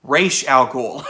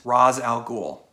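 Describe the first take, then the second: First: Ra's al Ghul as "Raysh al Gool", slow; slow careful "Ra's al Ghul", raysh; correct pronunciation. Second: Ra's al Ghul as "Rahz al Gool"; wrong pronunciation. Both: Shown as a demonstration. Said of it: "No, sorry".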